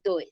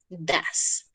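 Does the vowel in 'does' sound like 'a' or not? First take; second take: not a; a. First: The vowel does not sound like an a. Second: The vowel sounds like an a. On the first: The speaker calls it wrong. "No se dice does" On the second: The speaker calls it right. "Como si esta O y esta E sonaran como una A"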